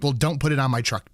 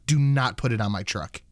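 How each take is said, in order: First: Said in the usual way. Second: "Do not" spelled out, both words hit firmly; telling the mechanic firmly "Do not" touch the truck; stress on do not. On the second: Retold or imitated. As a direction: lean on "Do not" to insist.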